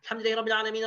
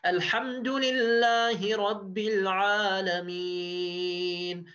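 First: It is recited very fast and rushed. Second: It is recited slowly and deliberately. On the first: The reciter only wants to finish quickly. The speaker calls it wrong. "how are they reciting?" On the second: The reciter reflects on the verse. The speaker calls it right. "instead of saying"

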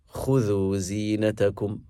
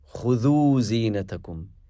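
First: The stress is on the first syllable. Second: The stress is on the second syllable. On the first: The speaker calls it right. "more eloquent is emphasizing the start of the command" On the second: The speaker calls it wrong. "It would be acceptable"

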